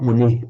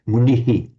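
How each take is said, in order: First: The word ends plainly without an echoed syllable. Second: The word ends with an extra echoed 'hi'. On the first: The speaker calls it wrong. "not muni" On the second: The speaker calls it right. "little shadow vowel"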